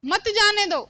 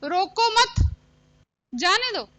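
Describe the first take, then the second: First: मत जाने दो run together as one phrase; pause before मत. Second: रोको मत joined and raised, a clear break, then जाने दो; pause after मत. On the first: Teacher showing how pause changes meaning, मत grouped with जाने दो. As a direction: join मत onto जाने दो, higher pitched, with no break inside. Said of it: "एक विराम चिन्ह का प्रयोग किया". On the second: Teacher forms second sentence for pupils, pause moved to after मत. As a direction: halt after मत, then give जाने दो separately. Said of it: "दूसरा वाक्य मैं ऐसे बनाती हूं". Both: Shown as a demonstration.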